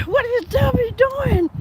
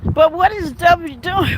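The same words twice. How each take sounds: First: High, slow, laughing repeat of the question; laughing disbelief. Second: Said in the usual way. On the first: Real, not acted. Laughing at the streamer's theatrics, repeating the question.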